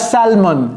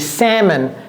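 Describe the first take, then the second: First: An L sound is heard in the middle. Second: No L sound is heard in the middle. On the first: The speaker calls it wrong. "C'est pas salmon" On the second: The speaker calls it right. "c'est salmon"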